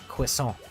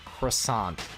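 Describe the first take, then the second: First: It is pronounced the way a French speaker would. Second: It is pronounced the plain American English way. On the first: The speaker calls it wrong. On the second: The speaker calls it right.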